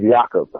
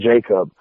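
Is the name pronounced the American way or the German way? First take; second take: German; American. First: The name is pronounced the German way. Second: The name is pronounced the usual American way. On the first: The speaker calls it right. "The correct pronunciation is Jakob. He's German" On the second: The speaker calls it wrong. "so you don't call him Jacob"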